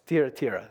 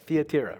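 First: The name is pronounced in a Greek way. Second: The name is pronounced in a Greek way.

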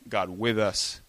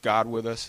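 First: The stress is on with. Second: The stress is on God.

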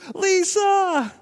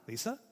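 First: It is shouted in a frantic, scared voice. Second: It is asked in a puzzled, questioning voice.

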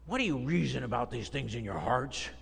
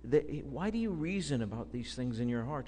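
First: The question sounds harsh and accusing. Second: The question sounds gentle and caring. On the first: The speaker is condemning the listeners. The speaker calls it wrong. "You could read it with that kind of inflection. That's not it" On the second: The speaker wants the listeners to come and see the truth. The speaker calls it right. "There's grace. There's love"

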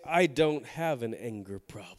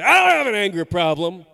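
First: The sentence is said in a calm tone. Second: The sentence is said in an angry tone. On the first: "Maybe they say it like that" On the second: "or maybe they say"

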